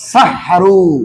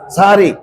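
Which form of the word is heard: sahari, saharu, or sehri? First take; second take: saharu; sahari. First: The word is said as sa-ha-ru, ending in oo. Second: The word is said as sa-ha-ri, ending in ee. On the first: The speaker calls it right. "আসলে বল শব্দ হলো সাহারু।" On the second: The speaker calls it wrong. "এই দুইটাই ভুল।"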